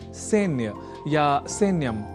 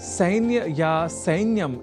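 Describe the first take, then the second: First: The first vowel is a plain e sound. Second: The first vowel is a gliding diphthong ai. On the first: The speaker calls it wrong. "न कि सैन्य या सैन्यम इस रूप में" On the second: The speaker calls it right. "इस रूप में ही करना चाहिए"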